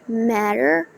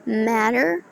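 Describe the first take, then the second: First: The final R sound is clearly pronounced. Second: The final R sound is clearly pronounced.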